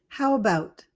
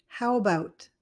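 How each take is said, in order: Both takes have the same delivery.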